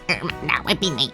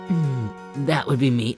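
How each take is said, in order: First: It is said in a put-on nerdy voice. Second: It is said in the speaker's natural voice.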